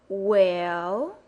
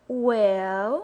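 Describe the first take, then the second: No difference in how they are said.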